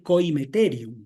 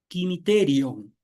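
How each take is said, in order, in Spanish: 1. La primera sílaba suena como 'koy'. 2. La primera sílaba suena como 'kee'. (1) "Más que coimeterium" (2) "la pronunciación debería ser quimiterion"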